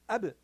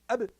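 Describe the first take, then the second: First: The b ends with a brief light bounce. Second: The b ends with a brief light bounce.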